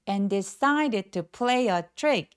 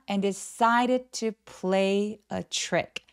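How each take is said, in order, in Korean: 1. 피치가 문장 내내 계단식으로 떨어지지 않습니다. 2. 피치가 문장 내내 계단식으로 조금씩 떨어집니다. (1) "이게 아니라" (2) "조금씩 톤이 내려오는 느낌으로 연결합니다"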